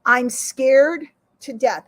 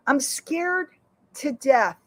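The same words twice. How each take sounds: First: Each word dragged out, louder; slow, emphatic repeat. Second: Said in the usual way. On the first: Shown as a demonstration. Admitting his fear to viewers, slow and emphatic. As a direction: lean on I'm scared to death, slowly. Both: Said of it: "Let me say it again".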